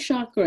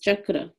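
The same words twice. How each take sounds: First: The word does not begin with a 'ch' sound. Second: The word begins with a 'ch' sound. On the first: The speaker calls it wrong. "no, it's not chakra" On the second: The speaker calls it right. "Just like it's spelled"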